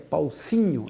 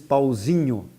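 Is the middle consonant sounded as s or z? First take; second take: s; z. First: The middle consonant is a voiceless s sound. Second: The middle consonant is a voiced z sound. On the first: It reveals a Spanish speaker. "aí dizia Paucinho" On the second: It is the native Portuguese way. "os portugueses mandavam dizer, diz Pauzinho"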